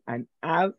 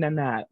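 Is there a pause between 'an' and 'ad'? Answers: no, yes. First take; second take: yes; no. First: There is a pause between an and ad. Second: An and ad are linked without a pause. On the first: The speaker calls it wrong. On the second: The speaker calls it right.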